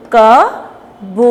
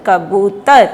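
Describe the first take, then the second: First: "कबूतर" slowly, sound by sound, long stressed "बू". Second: "कबूतर" joined up, stress on a long "बू"; blended with stress. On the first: Teacher leading children to repeat, sounded out. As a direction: break "कबूतर" into pieces, leaning on "बू". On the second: Teacher blending the word for children, stressed. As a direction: blend "कबूतर" together, holding "बू". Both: Shown as a demonstration. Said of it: "जोर दे के बोलना है".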